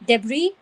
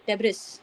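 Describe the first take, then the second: First: The final s is silent. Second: The final s is pronounced. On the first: The speaker calls it right. "where the S is silent" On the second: The speaker calls it wrong. "most of it would pronounce as debris"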